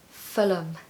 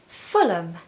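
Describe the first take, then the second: First: The ending is pronounced as a weak 'um'. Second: The same.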